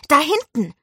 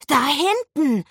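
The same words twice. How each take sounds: First: High, loud cry pointing something out; sudden call. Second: Put-on high, excited child's cry; excited call. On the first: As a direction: shout out the spot excitedly. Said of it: "rief er plötzlich". (plötzlich und laut gerufen) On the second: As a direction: call out a sudden sighting, pitched high. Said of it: "rief er aufgeregt". (aufgeregt gerufen) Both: A narrator's reading.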